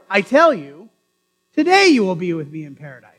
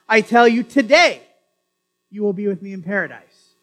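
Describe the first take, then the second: First: The pause comes after "you". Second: The pause comes after "today".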